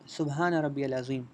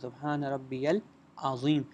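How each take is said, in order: First: The last word starts with a short vowel. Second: The last word starts with a long vowel. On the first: "कुछ पढ़ते हैं" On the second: "अक्सर लोग गलती करते हैं इस वर्ड में"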